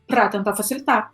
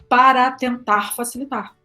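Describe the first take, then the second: First: The word para is shortened to one syllable. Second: The word para is said fully with two syllables. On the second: "ao invés de"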